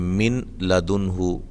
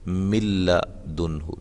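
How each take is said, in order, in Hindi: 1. n का उच्चारण l से पहले साफ़ होता है। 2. n दोहरे l की आवाज़ में मिल जाता है।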